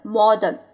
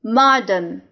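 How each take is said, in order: First: "modern" with a rounded "aw" in the first syllable; second reading of modern. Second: "Modern" with an open "ah" in the first syllable; first reading of Modern. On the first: Teacher shows the other reading, "modern" said MAW-dern. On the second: Teacher models the word for learners, "Modern" said MAH-dern. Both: Shown as a demonstration. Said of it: "第二种读法".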